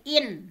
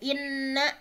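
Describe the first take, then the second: First: The n sound is single and short. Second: The n sound is doubled and held. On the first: "bentuk tahfif dari inna" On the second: "ada ada tasydid"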